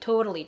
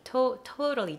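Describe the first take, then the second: First: The word is pronounced smoothly, with a fluent tongue. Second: The word is pronounced clumsily, with a stiff tongue. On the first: The speaker calls it right. "徐々にtotally totally totally totally totally と発音できるようになっていきました" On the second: The speaker calls it wrong. "最初はtotally totally totally だったのが"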